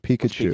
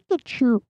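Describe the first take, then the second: First: It is said in his normal speaking voice. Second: It is said in an imitated Pikachu voice.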